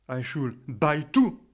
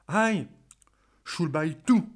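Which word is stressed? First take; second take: buy; I. First: The stress is on the word buy. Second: The stress is on the word I. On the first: The tickets should be given, not bought. "je vais insister sur le verbe buy" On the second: The other person should be the one buying. "si vous insistez sous le mot aïe"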